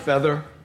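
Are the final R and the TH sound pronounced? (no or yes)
yes. It is said with the final R and TH. "instead of feather"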